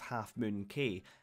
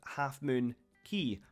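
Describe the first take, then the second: First: The last word sounds like 'kay'. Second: The last word sounds like 'key'. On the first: The speaker calls it wrong. "I've been pronouncing the name of the island as" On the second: The speaker calls it right. "it turns out the name should be pronounced"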